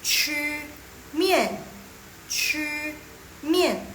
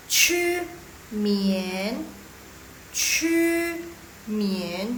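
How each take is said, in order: First: "mian" falling sharply from high; forceful falling fourth-tone "mian" in "Chu mian". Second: Rising second-tone "mian" in "Chu mian". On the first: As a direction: say "Chu" high and level, then punch "mian" downward. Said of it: "Yang ngegas. Dia ngegas yang baru benar. Empat". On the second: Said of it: "Yang dua". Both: Shown as a demonstration.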